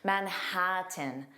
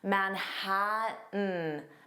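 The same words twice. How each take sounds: First: The T sound is fully released before tin. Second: The T sounds are replaced by glottal stops. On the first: "If you didn't use a glottal stop, you would say Manhattan. Tin" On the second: "I did not pronounce those T's at all? This is called a glottal stop"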